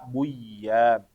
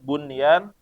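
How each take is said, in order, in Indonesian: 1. Bunyi n tidak terdengar. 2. Bunyi n diucapkan dengan jelas.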